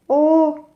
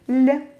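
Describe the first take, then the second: First: The L is hard, with the tongue lowered. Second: The L is soft, with the tongue raised. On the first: "For a hard L" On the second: "soft L"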